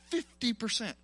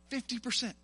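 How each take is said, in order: Both takes have the same delivery.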